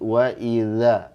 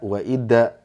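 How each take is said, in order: First: The consonant is a soft th sound. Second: The consonant is a hard d sound. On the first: The speaker calls it right. "Harus lembut" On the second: The speaker calls it wrong. "kesalahan umum kadang jadi da"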